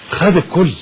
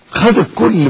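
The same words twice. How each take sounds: First: Said in the usual way. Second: Higher, louder repeat of خد الكل; emphatic repeat. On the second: Real, not acted. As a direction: hit خد harder the second time. Repeated for emphasis, second take.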